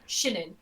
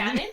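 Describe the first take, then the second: First: The name is said with a Chinese accent. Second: The name is said in her own accent.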